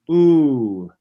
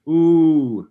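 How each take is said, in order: The two takes are said the same way.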